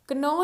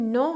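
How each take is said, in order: First: कनो with an audible K before the N; K wrongly sounded. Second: नो said with the K silent, starting on N. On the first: Teacher showing learners the mistake, K wrongly pronounced. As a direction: sound the silent K, making it कनो. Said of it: "कनो नहीं है". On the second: Teacher showing learners the correct word, silent K. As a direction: say नो with no K sound at the start. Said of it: "के यहाँ पे silent है". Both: Shown as a demonstration.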